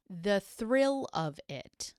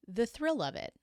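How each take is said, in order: First: Slow, each word dropped with disbelief; incredulous repeat. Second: Said in the usual way. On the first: Shown as a demonstration. Narrator to viewers, slow and incredulous. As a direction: let the absurdity hang.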